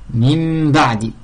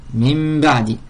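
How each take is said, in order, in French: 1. Le nasal devant le b est un m. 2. Le nasal devant le b est un m.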